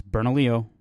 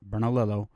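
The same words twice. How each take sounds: First: Bernalillo ending in "lee-oh"; correct local pronunciation. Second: Bernalillo ending in "lil-oh", hard L's; outsiders' mispronunciation. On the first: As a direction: say Bernalillo the Spanish way, "ber-na-LEE-oh". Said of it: "not Bernalillo". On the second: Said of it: "and it's Bernalillo". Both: Shown as a demonstration.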